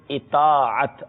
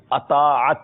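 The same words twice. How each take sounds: First: اطاعت with zer under the alif: i-taa-at; juiste uitspraak. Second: اطاعت with an opening short "a": a-taa-at; foute uitspraak. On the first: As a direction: open اطاعت on a short "i", slowly shown. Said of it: "کے نیچے زیر ہے". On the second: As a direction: say اطاعت wrongly, starting on "a" instead of "i". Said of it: "یہ غلط ہے". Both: Shown as a demonstration.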